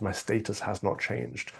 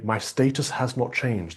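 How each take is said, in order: First: Softer, slow, stress on "my"; repeating Harry's line. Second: Slow, weighty stress on "status"; quoting Harry slowly. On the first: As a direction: drop the voice and hit "my". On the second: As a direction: lean on "status", falling at the end. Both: Retold or imitated. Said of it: "he goes on to say".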